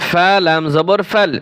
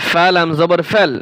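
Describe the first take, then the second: Both takes have the same delivery.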